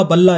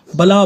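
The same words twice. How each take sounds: First: बल्ला with a long double ल; lengthened consonant. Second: Said in the usual way. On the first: Shown as a demonstration. Teacher giving length examples, बल्ला with a held ल्ल. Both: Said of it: "उसी का एक भेद है दीर्घता".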